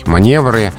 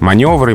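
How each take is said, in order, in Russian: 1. Ударная вторая гласная звучит как 'e'. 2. Ударная вторая гласная звучит как 'o'. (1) "это вариант допустимый. Не эталонный, не ошибочный, но допустимый" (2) "это строгая норма, это образцовая литературная речь"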